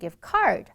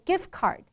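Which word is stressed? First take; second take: card; gift. First: The stress is on the second word. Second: The stress is on the first word. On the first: The speaker calls it wrong. "把重音放在后面的第二个字" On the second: The speaker calls it right. "百分之九十九的情况下是把重音放在第一个字"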